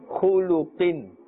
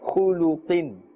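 The two takes are said the same way.

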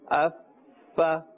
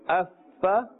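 First: The f sound is stretched out long. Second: The f sound is kept short. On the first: The speaker calls it wrong. "Don't stretch the sound of the fa and say affa" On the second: The speaker calls it right. "Say it in the ma'roof or the normal manner"

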